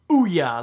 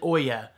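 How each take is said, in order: First: The word rhymes with booyah. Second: The word does not rhyme with booyah. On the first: The speaker calls it right. "like booyah, but without the B" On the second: The speaker calls it wrong. "you're saying Ouya wrong. As I know I said Oya"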